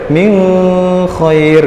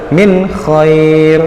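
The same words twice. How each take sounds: First: The n sound is blurred and nasalized. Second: The n sound is clear and distinct. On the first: The speaker calls it wrong. "tidak boleh" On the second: The speaker calls it right. "Jadi dia harus jelas"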